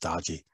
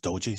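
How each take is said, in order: First: The first vowel is a short 'o' sound. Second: The first vowel is a long 'oh' sound. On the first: "some people pronounce it as dodgy" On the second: "some people pronounce it as doji"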